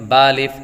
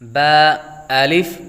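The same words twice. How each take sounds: First: The two letter names run together without a pause. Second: The two letter names are separated by a pause. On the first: The speaker calls it wrong. "इस तरह नहीं पढ़ना" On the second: The speaker calls it right. "दोनों को अलग अलग पढ़ा"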